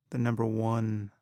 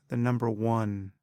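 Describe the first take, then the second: No difference in how they are said.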